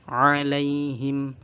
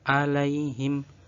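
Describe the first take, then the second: First: It begins with a deep throat ain sound. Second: It begins with a plain glottal stop. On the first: The speaker calls it right. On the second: The speaker calls it wrong.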